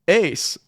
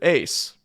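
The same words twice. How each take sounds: First: The name is called a little louder. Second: The name is called at a quiet volume.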